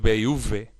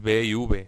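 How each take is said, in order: First: The V is made with lip and teeth. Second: The V is made with both lips. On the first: The speaker calls it wrong. "no es B y V" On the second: The speaker calls it right. "es B y V"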